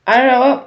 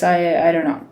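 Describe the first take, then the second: First: Calm turning angry. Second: Said in the usual way. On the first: Real, not acted. Frustrated trader losing patience.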